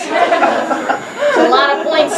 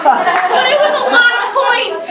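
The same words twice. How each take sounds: First: Very slow, laughing emphasis; slow, drawn out. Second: Said in the usual way. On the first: Shown as a demonstration. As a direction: stretch every word, laughing.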